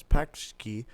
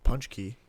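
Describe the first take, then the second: First: "Paxki" read as it is spelled; spelling pronunciation. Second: "Punchki" with a PUNCH first syllable; correct Polish pronunciation. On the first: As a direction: say "Paxki" with a PAX first syllable. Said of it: "this is spelled as Paxki". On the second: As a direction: say "Punchki", PUNCH plus kee. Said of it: "but it's pronounced Punchki". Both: Shown as a demonstration.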